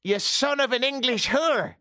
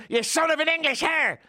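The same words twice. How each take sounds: First: High, yelled Irish insult; Irish accent. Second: High Irish yell, mangled word; Irish accent. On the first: Homeless man cursing the Englishman, in a shrieking Irish accent. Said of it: "He actually said". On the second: Homeless man insulting him again, in a high Irish accent. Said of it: "So he goes". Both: Retold or imitated.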